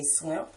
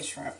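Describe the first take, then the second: First: "swimp" with SW for SHR; others' pronunciation. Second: "shrimp" with clear SHR; SH and R both sounded in "shrimp"; own pronunciation. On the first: Showing how people she knows say it, "swimp" for shrimp. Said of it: "people that say swimp". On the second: Speaker showing her own way, "shrimp" with SHR. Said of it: "but I say shrimp". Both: Shown as a demonstration.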